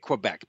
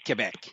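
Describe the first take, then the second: First: The name is pronounced with an English accent. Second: The name is pronounced with a French accent. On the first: This is how English speakers say it. "I say Quebec because I'm Anglophone" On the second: This is how French speakers say it. "in French they say Quebec"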